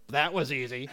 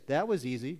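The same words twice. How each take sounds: First: Dry sarcastic delivery; mock how easy it was, sarcastically. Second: Said in the usual way. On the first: Shown as a demonstration. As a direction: say it with obvious sarcasm. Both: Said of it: "There's two ways to say this".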